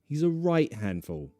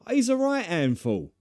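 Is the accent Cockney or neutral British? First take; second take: neutral British; Cockney. First: The T is dropped but the H is kept. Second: Both the T and the H are dropped. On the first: "Right is neutral to drop that T" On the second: "Dropping the H as well sounds very, very Cockney"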